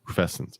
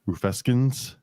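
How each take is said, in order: First: The c is pronounced soft, like s. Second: The c is pronounced hard, like k.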